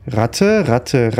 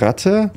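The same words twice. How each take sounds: First: Said in the usual way. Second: High rising question on Ratte; questioning rise. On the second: Real, not acted. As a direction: ask Ratte with a sharp rise. Searching for rats.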